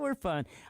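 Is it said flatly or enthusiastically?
flatly. It is said flatly, without much enthusiasm.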